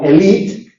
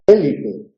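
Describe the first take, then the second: First: Elite with stress on the final syllable, French style. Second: Élite with stress on the first syllable; Spanish-style élite stressed on the first syllable. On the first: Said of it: "un acento que indica que esa E es abierta". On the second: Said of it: "se ha confundido un acento". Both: Shown as a demonstration.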